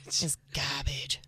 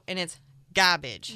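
First: Slow, hushed whisper on GARBAGE; whispered punchline. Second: GARBAGE landed firmly at full voice; emphatic punchline. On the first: Comic repeating the verdict on the date, whispered. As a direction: whisper it, drawn out and low. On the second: Comic telling co-host how the date went, emphatic. Repeated punchline, first take louder. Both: Acted.

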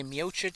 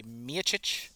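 First: "Miocic" as mee-OH-chitch, with a full O; one pronunciation variant. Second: "Miocic" as MEE-uh-chitch, middle vowel reduced; other pronunciation variant. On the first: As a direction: show "Miocic" with a clear oh in the middle. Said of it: "some people say Miocic". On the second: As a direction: show "Miocic" with a weak uh in the middle. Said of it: "Some people say Miocic". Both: Shown as a demonstration.

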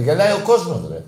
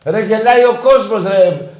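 First: Said in the usual way. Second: Louder exasperated repeat. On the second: Real, not acted.

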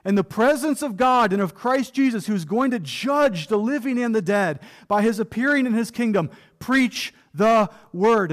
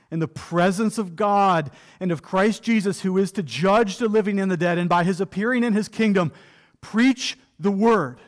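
First: Paul's solemn charge. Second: Scripture read aloud. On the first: Acted. Paul charging Timothy before God, urgent and grave. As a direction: deliver it as Paul binding Timothy by oath. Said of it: "what Paul says here to Timothy is". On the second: Shown as a demonstration. Preacher reading Paul's charge to Timothy aloud, solemn.

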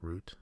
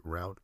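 First: Root as a question, rhyming with boot; oo pronunciation. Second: Route as a question, rhyming with out; rhymes with out. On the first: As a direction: ask root with a long oo. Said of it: "Is it root?". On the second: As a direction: ask route with an ow vowel. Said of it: "is it route?". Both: Shown as a demonstration.

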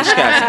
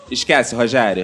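First: Repeated louder, laughing. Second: Low, dismissive mother shutting it down; calmly kill the idea, lower pitch; firm mom voice. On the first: Real, not acted. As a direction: say it again through laughter. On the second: Retold or imitated. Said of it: "minha mãe foi sensata".

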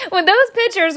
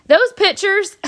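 First: High, words pushed out through leftover laughter; still laughing. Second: High, laughing through the words. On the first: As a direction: try to talk past the giggles. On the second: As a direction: crack up remembering the photo. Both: Real, not acted. Laughing recalling daughter's photo.

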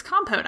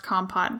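First: KOM-pote for "compote", rhyming with boat; corrected pronunciation. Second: KOM-pot for "compot", ending like hot; disputed pronunciation. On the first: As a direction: say "compote" with a long final o. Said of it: "I think that's wrong". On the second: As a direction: say "compot" with a short final o, as in pot. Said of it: "never heard it pronounced". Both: Shown as a demonstration.

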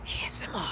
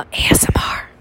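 First: Barely audible whisper; faint whisper. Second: Unvoiced whisper. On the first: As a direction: whisper it almost to nothing. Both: Shown as a demonstration. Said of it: "you guys get some".

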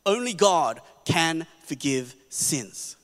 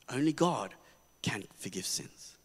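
First: Slow, weighty "Only" leaning on each word; slow emphatic declaration; stress on only. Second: "Only God" said quietly, then "can forgive sins" fading much softer and lower; quiet settling echo; soft restatement. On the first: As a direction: land "Only God can forgive sins" slowly, hitting "Only". Restated for emphasis. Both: Shown as a demonstration.

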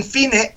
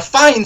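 First: "fine" in two syllables, FEE-neh; softer aside, "fine" as FEE-neh; Spanish spelling pronunciation. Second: Said in the usual way. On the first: Shown as a demonstration. Same word read as spelt.

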